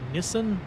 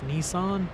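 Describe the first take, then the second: First: It is said in a non-American pronunciation. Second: It is said in an American pronunciation.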